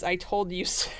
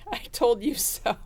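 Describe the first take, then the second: First: Said in the usual way. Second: Giggling through the words "I told you so"; "I told you so" said a little higher, breaking into laughter; can't hold back a laugh while saying "I told you so". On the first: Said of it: "the first thing that I see coming out of your mouth is". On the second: Retold or imitated. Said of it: "I can't say it without laughing".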